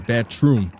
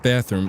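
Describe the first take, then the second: First: The middle sound is a hard T. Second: The middle sound is a soft th. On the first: The speaker calls it right. "It's with a T. That's that hard Bronx, New York accent" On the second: The speaker calls it wrong. "not bathroom"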